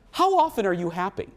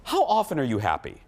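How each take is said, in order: First: "How often are you happy?" raised higher with a rise at the end; insistent repeat. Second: Said in the usual way. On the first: Retold or imitated. Repeating the question to the group, higher and insistent. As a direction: press the question again, higher and rising. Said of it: "She goes". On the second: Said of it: "And then Steph goes".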